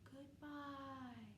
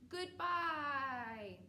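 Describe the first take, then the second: First: It is said quietly. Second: It is said loudly.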